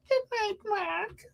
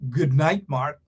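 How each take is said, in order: First: It is said in a soft, feminine voice. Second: It is said in a deep, manly voice. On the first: The speaker calls it wrong. "Do not come and say" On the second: The speaker calls it right. "Put on your male voice. Say"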